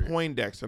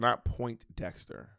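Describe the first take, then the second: First: The first syllable is 'poin' without a t. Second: The first syllable sounds like 'point' with a t. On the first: The speaker calls it right. "It's three" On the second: The speaker calls it wrong. "You said point"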